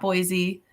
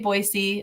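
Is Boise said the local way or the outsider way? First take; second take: outsider; local. First: It is said with the outsider pronunciation. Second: It is said with the local pronunciation. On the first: The speaker is not from the area. The speaker calls it wrong. "not Boise" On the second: The speaker is from the area. The speaker calls it right. "you know people are from here if you say Boise"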